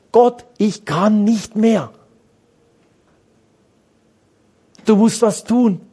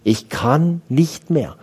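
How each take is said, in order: First: A desperate cry upward, drawn out slowly; crying out to God. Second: Said in the usual way. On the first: Shown as a demonstration. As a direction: call out to God as if at the end of your strength. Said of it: "Wie viele schreien so?". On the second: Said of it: "Wie viele sprechen so?".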